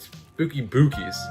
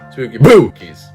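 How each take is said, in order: First: It is said in a normal speaking voice. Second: It is said in a spooky ghost voice.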